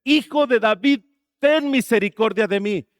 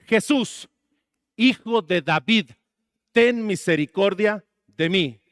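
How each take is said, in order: First: Imitated shout, higher and louder; insistent retold plea, voice raised; much louder cry. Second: Slow, mildly raised plea; a restrained mock cry for mercy; retold calling out. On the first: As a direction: cry out harder, as the blind man silenced by others. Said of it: "Mucho más fuerte". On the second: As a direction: imitate a blind man calling out, drawn-out. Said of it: "y alguien le grita y le dice".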